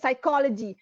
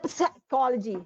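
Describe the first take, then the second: First: The word begins with an s sound, no p. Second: The word begins with an audible p sound. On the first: The speaker calls it right. "senyapkan uh, apa ni bunyi peh itu" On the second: The speaker calls it wrong. "Dia tak kata psychology"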